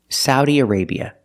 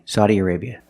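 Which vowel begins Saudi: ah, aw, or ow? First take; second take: ow; ah. First: The first vowel sounds like ow in cow. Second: The first vowel sounds like ah in hot. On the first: "using the sound ow like cow and how" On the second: "the open sound ah, like hot and stop"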